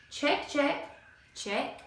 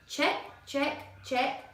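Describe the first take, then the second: No difference in how they are said.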